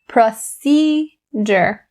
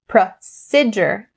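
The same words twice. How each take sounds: First: The second syllable has a long E vowel. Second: The second syllable has a short E vowel. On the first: The speaker calls it right. "the long E sound" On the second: The speaker calls it wrong. "Don't change the long E to the short E"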